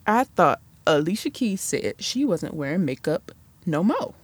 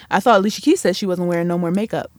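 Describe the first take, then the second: First: Much softer muttered aside; muttered repeat. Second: Said in the usual way. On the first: Shown as a demonstration. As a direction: mutter it again under your breath. Same line repeated softly.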